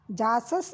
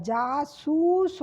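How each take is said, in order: First: जासस said without any ऊ; जासस, short flat vowels, no ऊ; wrong word shown. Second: जासूस said slowly, the ऊ drawn out long; correct pronunciation. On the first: (जासस — बिना ऊ की मात्रा के) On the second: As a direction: stretch the ऊ in जासूस. (जासूस — धीरे, लंबा ऊ खींचकर) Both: Shown as a demonstration. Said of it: "जासस नहीं होता है".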